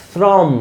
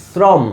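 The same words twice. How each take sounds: No difference in how they are said.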